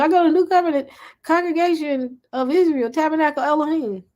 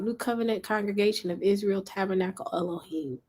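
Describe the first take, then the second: First: Higher, proud recital of the name; proud church member. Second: Said in the usual way. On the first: Pretend. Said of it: "what assembly you go to?".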